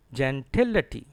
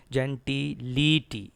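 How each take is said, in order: First: Gentility as jen-TIL-uh-tee; stress on TIL. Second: Gentility as jen-tee-LEE-tee, long EE vowels; wrong "ity" ending. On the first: Shown as a demonstration. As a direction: punch TIL and keep the ending of gentility as "uh-tee". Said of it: "Stress is on T I L". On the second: Retold or imitated. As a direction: spell out EE sounds in gentility. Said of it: "It is not ity".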